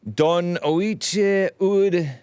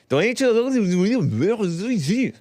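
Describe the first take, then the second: First: Slow, high, drawn-out fake Irish words; mock Irish. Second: High, slow, stretched mock French take; mock French-sounding. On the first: Host sounding out an Irish title in a mock accent. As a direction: stretch it out like faking Gaelic. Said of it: "It doesn't sound very Irish". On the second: Host's second try at the Irish title comes out mock French. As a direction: sing it out like a fake Frenchman. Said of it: "No, that sounds French".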